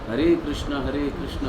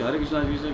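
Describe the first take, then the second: First: It is said slowly and clearly. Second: It is said fast and slurred. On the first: The name is given proper care. The speaker calls it right. "शनै शनै सुविस्पष्टम" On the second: The speaker is rushing to finish. The speaker calls it wrong. "ऐसे नहीं"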